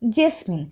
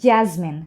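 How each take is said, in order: First: The first vowel sounds like the 'e' in bed. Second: The first vowel sounds like the 'a' in cat. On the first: The speaker calls it wrong. "অনেকে কিন্তু জেসমিন এভাবে করে উচ্চারণ করে" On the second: The speaker calls it right. "সঠিকভাবে বলতে গেলে আমাদেরকে এভাবে বলতে হবে জ্যাসমিন"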